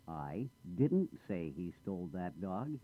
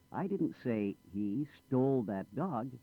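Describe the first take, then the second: First: The word didn't carries the main stress. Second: The word stole carries the main stress. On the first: The speaker denies saying it at all. "I did say something, but not that" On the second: He did something else with it. "Not stole it. He lost it"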